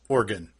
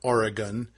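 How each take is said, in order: First: The name is slurred together, like organ. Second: Each syllable of the name is said clearly. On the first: The speaker calls it right. "like vital organs" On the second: The speaker calls it wrong. "It is not"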